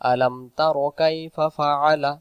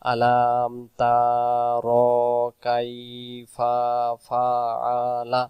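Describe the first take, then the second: First: The vowels are short and read quickly. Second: The vowels are drawn out in a melodic tune. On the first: The speaker calls it right. "যখন আমরা এগুলো হারকাত মেনে চলবো তখন এর উচ্চারণটা সুন্দর চলে আসবে" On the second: The speaker calls it wrong. "যে জায়গায় টান নেই সে জায়গায় আমরা টান দিই। যেমন আমরা অনেকে যদি পড়ি সুর দিয়ে"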